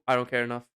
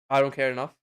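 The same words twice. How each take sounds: The two takes are said the same way.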